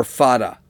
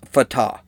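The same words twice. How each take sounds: First: Fatah said FAH-tuh, stress on the first syllable; alternative pronunciation. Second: Fatah said fuh-TAH, stress on the last syllable; uncertain pronunciation. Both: Shown as a demonstration. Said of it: "I don't know how to pronounce it".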